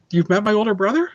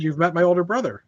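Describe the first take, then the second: First: "brother?" lifts up at the end, a real question; asked as a question. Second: Put-on "You've met my older brother." with a falling end on "brother"; "older brother" falls, stated as fact; flat statement. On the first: Real, not acted. She asks, later recasts as statement. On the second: Restates her line as a statement.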